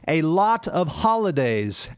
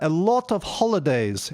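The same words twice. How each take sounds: First: The stressed vowels sound like 'ah'. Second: The stressed vowels sound like 'oh'. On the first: The speaker calls it right. "It should be" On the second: The speaker calls it wrong. "saying oh instead of ah. So she said"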